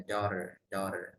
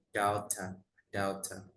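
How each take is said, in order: First: American "daughter", final r still heard; American pronunciation. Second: British "daughter" with the r dropped; British pronunciation. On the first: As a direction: keep the r, American-style "daughter". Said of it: "kalau American tuh R-nya masih". ("daughter" logat Amerika, R terdengar) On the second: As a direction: let the final r vanish, British-style "daughter". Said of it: "British R-nya agak hilang". ("daughter" logat British, R hilang) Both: Shown as a demonstration.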